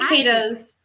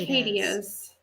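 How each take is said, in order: First: The word has no extra vowel before the ending. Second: The word has an extra 'ee' vowel before the ending. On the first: The speaker calls it right. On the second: The speaker calls it wrong. "not cicadias. Mm, sorry"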